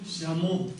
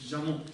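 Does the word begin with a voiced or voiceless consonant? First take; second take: voiceless; voiced. First: It begins with a voiceless hissing consonant. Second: It begins with a voiced buzzing consonant. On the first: This is the Central Tibetan pronunciation. "в центральном Тибете как «щаму»" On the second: This is the Eastern Tibetan pronunciation. "А в восточном диалекте уже будет «жаму»"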